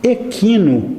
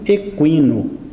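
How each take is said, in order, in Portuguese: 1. O U depois do Q não é pronunciado. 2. O U depois do Q é claramente pronunciado. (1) "sem a pronúncia do U" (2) "pronunciando o U de uma maneira forte"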